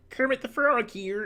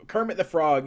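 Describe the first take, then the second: First: High puppet-frog voice; Kermit the Frog. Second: Said in the usual way. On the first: Acted. Streamer showing Kermit before lowering it, high puppet voice. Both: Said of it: "Kermit the Frog, you know".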